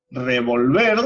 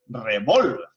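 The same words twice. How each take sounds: First: "revolver" stressed on the last syllable, re-vol-VER; stress on final syllable. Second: "revólver" stressed on the middle syllable, re-VÓL-ver. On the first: Teacher contrasting meanings for the class, "revolver" stressed on VER. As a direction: push the VER at the end of "revolver". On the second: Teacher contrasting meanings for the class, "revólver" stressed on VÓL. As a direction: punch VÓL in "revólver", let ver fall. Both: Shown as a demonstration. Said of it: "al cambiarle la mayor fuerza de voz".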